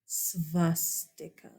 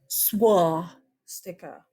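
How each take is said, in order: First: The word begins with an sv sound. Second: The word begins with an sw sound. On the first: The speaker calls it right. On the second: The speaker calls it wrong. "it is not a, look at my lips"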